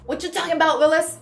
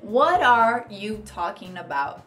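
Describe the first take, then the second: First: It is said fast and clipped. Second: It is said fully at normal speed.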